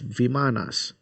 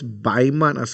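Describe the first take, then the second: First: The word begins with a V sound. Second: The word begins with a B sound. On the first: The speaker calls it right. "like it's V I M A N A S" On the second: The speaker calls it wrong. "She pronouncing it as Bimanas"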